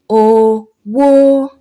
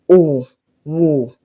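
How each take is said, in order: First: The first syllable is mid, the second high. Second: Both syllables are on a low tone. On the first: It means money. "mid and high... Re, mi" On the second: It means business or trade. "two vowels with do sign... do, do"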